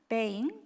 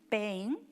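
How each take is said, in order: No difference in how they are said.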